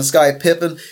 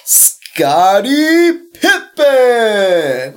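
First: Said in the usual way. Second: Scottie Pippen stretched out very slowly, higher and louder; savoring the name. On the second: Shown as a demonstration. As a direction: drawl out Scottie Pippen lovingly, every syllable long. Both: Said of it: "maybe because of his name".

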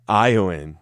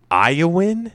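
First: Iowan with a falling, decided tune; settled Iowan. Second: Iowan with a high, rising question tune. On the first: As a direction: state Iowan as the final answer. Settles on the name. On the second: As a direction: try out Iowan as a doubtful question. Trying out a name, then settling. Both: Shown as a demonstration.

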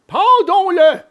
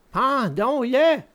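First: High, loud villain order; eager assassin. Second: Slow, subdued villain echo; echoing assassin. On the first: One assassin urging the other to hang him, loud and high. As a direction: urge it loudly, pitched way up. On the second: Second assassin agreeing to the hanging, slow echo. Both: A narrator's reading.

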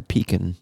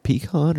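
First: Pecan said as PEE-kun; pecan with a short, weak last syllable; reduced second vowel. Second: Pecan said as pee-KAHN; pecan with a long "ah" in the last syllable; open second vowel. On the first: Comparing two ways of saying it, pecan as PEE-kun. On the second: Comparing two ways of saying it, pecan as pee-KAHN. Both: Shown as a demonstration. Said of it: "Like pecan or pecan?".

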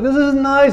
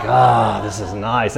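First: High, strained mock-nervous voice; uneasy pretence. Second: Low, relaxed sigh of contentment; comfortable. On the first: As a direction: pretend it is fine in a high pitch. Everyone else uneasy in awkward encounter. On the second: Retold or imitated. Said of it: "comfortable in it".

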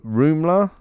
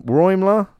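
First: "Rumler" said ROOM-ler, questioning. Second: "Roimler" said ROYM-ler, higher and drawn out. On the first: Newsreader stumbling on a surname, tentatively saying "Rumler" as ROOM-ler. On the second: Newsreader retrying a surname, slowly saying "Roimler" as ROYM-ler. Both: Real, not acted.

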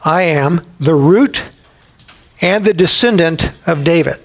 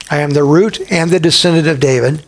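First: Slow, weighty scripture. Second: Said in the usual way. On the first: Shown as a demonstration. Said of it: "here's who I am".

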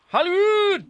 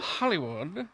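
First: Very high, loud showbiz call; hammed-up high holler; mock fanfare. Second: Quiet, slightly questioning echo; understated echo. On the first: Mock fanfare on guest's location. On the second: Pretend. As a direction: say it lightly under the breath. Echoes Hollywood, then calls it out.

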